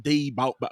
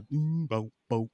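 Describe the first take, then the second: First: "day bow bow" chanted with DAY up front; mistaken hook wording. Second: "boom bow bow" slowly chanted; sung, draw out BOOM, then two bows; sung, demonstrate the hook starting on a long "boom"; sung, corrected song hook. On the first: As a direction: quote the hook as "day bow bow", pitched higher. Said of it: "It's not, it's not day bow bow". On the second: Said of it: "It's a boom bow bow". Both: Shown as a demonstration.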